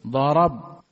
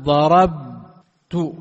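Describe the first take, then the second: First: Said in the usual way. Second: ضربت held extremely slowly, louder, ending in a rise; stretched, loud demo. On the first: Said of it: "مبني على السكون". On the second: Shown as a demonstration. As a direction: draw out ضربت to show the still ending. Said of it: "شوف الآن أقول". (ضربت ممدودة جدًا وبصوت عالٍ مع نبرة صاعدة في آخرها)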